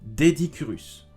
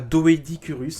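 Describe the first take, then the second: First: The first syllable has one vowel, a plain 'é'. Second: The first syllable has two vowels, 'o' then 'é'. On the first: The speaker calls it right. "Le O E est attaché, ça se dit E" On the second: The speaker calls it wrong. "c'est pas Doedicurus"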